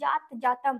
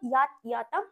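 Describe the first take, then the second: First: The words start with a 'j' sound. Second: The words start with a 'y' sound. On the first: The speaker calls it wrong. "অনেকে উচ্চারণটা কি করবে জাত জাতাম হবে" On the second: The speaker calls it right. "সেই জন্য এটাকে কি বলবো ইয়াত ইয়াতাম উস"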